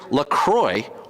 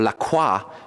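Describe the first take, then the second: First: The name has a plain American English pronunciation. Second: The name has a French-style pronunciation.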